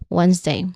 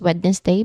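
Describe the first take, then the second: First: The d sound in the middle is silent. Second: The d sound in the middle is pronounced. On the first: The speaker calls it right. "no d sound in Wednesday" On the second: The speaker calls it wrong. "You do not pronounce it as Wednesday"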